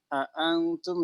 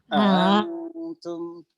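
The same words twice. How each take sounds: First: The second hamza is pronounced as a full glottal stop. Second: The second hamza is softened, not a full stop.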